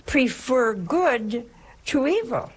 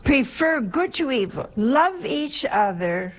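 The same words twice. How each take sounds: First: Slow, weighty preacher's line, "evil" drawn out; preaching command. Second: Higher-pitched sermon line with "good" stressed; raised preaching. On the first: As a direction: lay down the commandment slowly. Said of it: "our Lord is telling us now". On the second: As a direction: lift it up as the commandment. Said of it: "our dear Lord is telling us here". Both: Acted.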